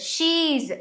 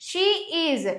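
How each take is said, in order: First: The words are run together into one syllable. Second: Two separate words are said in full.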